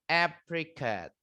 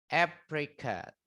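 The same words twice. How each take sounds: The two takes are said the same way.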